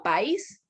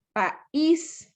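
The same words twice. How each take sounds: First: "país" squashed into one syllable, "pais"; wrong diphthong. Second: "país" broken into pa, ÍS; correct hiatus. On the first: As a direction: stress the A of "país" and glide into I. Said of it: "Yo no digo". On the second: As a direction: pause before the stressed ÍS in "país". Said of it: "Yo no digo país". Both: Shown as a demonstration.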